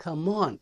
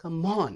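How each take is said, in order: Both takes have the same delivery.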